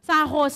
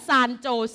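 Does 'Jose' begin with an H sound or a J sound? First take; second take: H sound; J sound. First: The second word begins with an H sound. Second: The second word begins with a J sound. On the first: The speaker calls it right. "มันเป็นภาษาสเปนิชค่ะอ่านว่าซานโฮเซ" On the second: The speaker calls it wrong. "ไม่อ่านว่าซานโจเซ"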